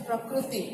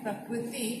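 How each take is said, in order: First: प्रकृति with a ru sound, prakruti; प्रकृति spoken as prakruti with a u vowel after kr; Odia pronunciation. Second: प्रकृति with a clear ri sound, prakriti; प्रकृति spoken as prakriti with an i vowel after kr; Hindi pronunciation. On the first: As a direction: say प्रकृति the Odia way, kru instead of kri. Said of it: "आप कहते हो". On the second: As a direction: say प्रकृति the Hindi way, kri not kru. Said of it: "हम बुलाते हैं". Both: Shown as a demonstration.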